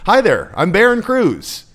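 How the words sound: The voice sounds weak and pleading. "that's not powerful. How did that sound to you? It sounds super weak"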